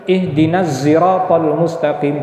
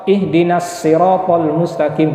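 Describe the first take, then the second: First: Siratal starts with a z sound. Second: Siratal starts with a plain s sound. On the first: "bisa dibaca dengan huruf zai" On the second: "bisa dibaca dengan huruf sin"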